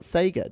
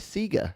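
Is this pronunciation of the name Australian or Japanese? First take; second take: Japanese; Australian. First: It uses the Japanese pronunciation of the name. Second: It uses the Australian pronunciation of the name. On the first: The speaker calls it right. "that's the actual Japanese pronunciation" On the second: The speaker calls it wrong. "we say Sega"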